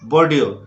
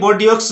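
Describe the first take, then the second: First: It ends with no 'ks' sound. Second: It ends with a pronounced 'ks' sound. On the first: The speaker calls it right. "तो इसको बोलना है आपको बोर्डियो" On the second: The speaker calls it wrong. "बोर्डियोक्स नहीं बोलना है आपको"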